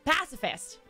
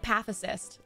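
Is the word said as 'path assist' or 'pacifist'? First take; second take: pacifist; path assist. First: The word sounds like standard 'pacifist'. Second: The word sounds like 'path assist'. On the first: The speaker calls it right. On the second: The speaker calls it wrong.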